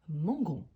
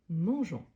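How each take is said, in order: First: The consonant is a hard g sound. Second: The consonant is a soft zh sound. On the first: The speaker calls it wrong. "on aura la prononciation mangon" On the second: The speaker calls it right. "la prononciation correcte"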